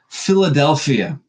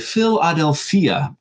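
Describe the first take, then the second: First: The name is pronounced the usual English way. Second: The name is pronounced the ancient Greek way.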